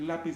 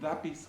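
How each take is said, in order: First: The word begins with an L sound. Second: The word begins with a D sound. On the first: The speaker calls it right. "en lugar de decir lápiz" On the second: The speaker calls it wrong. "me dicen lápiz con la D"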